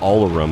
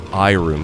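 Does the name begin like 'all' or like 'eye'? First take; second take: all; eye. First: The name begins with an 'all' sound. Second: The name begins with an 'eye' sound. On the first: The speaker calls it wrong. "I've always pronounced it as Allroom, and I think I've always said it wrong" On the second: The speaker calls it right. "according to the label blurb, they have it quoted as iRoom"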